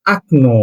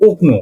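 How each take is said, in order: First: আকনো with an open a at the start instead of o; correct pronunciation. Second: ওকনো with a rounded o at the start, as the letters suggest; spelling-based reading. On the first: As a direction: read the first o of আকনো as আ. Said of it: "প্রথম ওকে আ হিসেবে পড়তে হবে". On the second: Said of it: "আকনো উচ্চারণ হয় ওকনো". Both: Shown as a demonstration.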